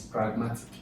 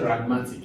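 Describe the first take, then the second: First: The P at the start is pronounced. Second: The P at the start is left out. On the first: The speaker calls it right. "No, it's pragmatic" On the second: The speaker calls it wrong. "you don't say ragmatic"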